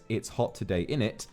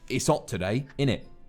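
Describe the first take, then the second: First: The h at the start of hot is pronounced. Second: The h at the start of hot is dropped. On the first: "less so as" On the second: "in hot, you would lose the eight"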